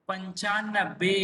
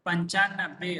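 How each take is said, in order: First: पंचानबे said slowly, syllable by syllable; teacher modelling पंचानबे slowly; slow pronunciation demo. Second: Said in the usual way. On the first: Shown as a demonstration. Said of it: "नौ के आगे पाँच लिखने से". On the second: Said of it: "कैसे?".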